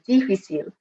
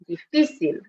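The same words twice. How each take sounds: First: The stress is not on the middle syllable. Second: The stress is on the middle syllable. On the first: The speaker calls it wrong. "This is one I often hear students mispronounce" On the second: The speaker calls it right. "with the strong part in the middle of the word"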